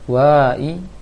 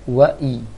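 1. Vokal pada wa dipanjangkan. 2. Vokal pada wa pendek. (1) "maka itu salah. Berarti itu sudah terpanjangkan wa-nya" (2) "Berarti wa-nya pendek. Maka bacanya wa-i"

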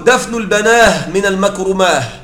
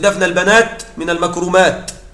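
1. تُنطق نهايات الجمع بالهاء في آخرها. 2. تُنطق نهايات الجمع بالتاء في آخرها. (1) "وقالوا" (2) "يقصد"

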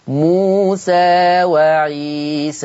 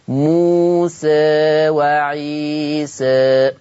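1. الحركتان الأخيرتان مفتوحتان، فتحة خالصة. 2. الحركتان الأخيرتان تميلان قليلاً نحو صوت الكسرة. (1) "ده فتح" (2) "والتقليل؟"

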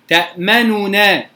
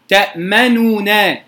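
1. حركة الضمة الكاملة تفصل بين صوتي النونين. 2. حركة الضمة الكاملة تفصل بين صوتي النونين.

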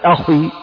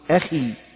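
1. صوت kh ثقيل ومفخّم. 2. صوت kh خفيف ورقيق. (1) "لا تقول أخي" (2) "تقول أخي"

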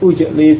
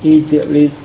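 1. Kata ini dimulai dengan vokal u. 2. Kata ini dimulai dengan vokal i. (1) "bukan ujlis" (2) "harokat hamzahnya menyesuaikan dengan harokat ain kalimahnya"

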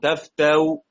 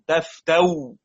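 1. تُخفَّف الهمزة الأخيرة بحركة خفيفة. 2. تتحول الهمزة الأخيرة إلى صوت واو. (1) "تسهيل براوم" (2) "إبدال بالواو على الرسم"

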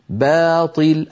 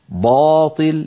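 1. صوت الباء في أول الكلمة خفيف ورقيق. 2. صوت الباء في أول الكلمة ثقيل وغليظ.

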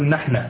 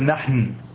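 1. تنتهي الكلمة بفتحة. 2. تنتهي الكلمة بحرف ساكن، دون حركة. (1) "وهو عند اللبنانيين مبني على الفتح" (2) "كيف السكون؟ لم أقل نحن"

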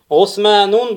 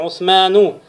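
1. Слово заканчивается на -ун, с финальным n. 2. Слово заканчивается на -у, без финального n. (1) "будет ошибочно" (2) "будет правильно"

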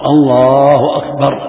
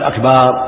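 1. الحركة قبل الراء الأخيرة قصيرة. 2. الحركة قبل الراء الأخيرة ممدودة. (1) "يقول الله أكبر لا يمد أكبر" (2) "لا يقول أكبر يتغير المعنى"

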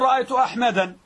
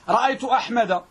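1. الاسم ينتهي بنون زائدة. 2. الاسم لا ينتهي بنون. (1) "لا تقول رأيت أحمدا"

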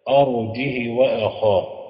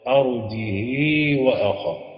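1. الهاء تأخذ كسرة قصيرة. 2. الهاء تأخذ كسرة مشبعة. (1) "أرجه بكسر الهاء مع القصد" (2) "بكسر الهاء مع الإشباع"

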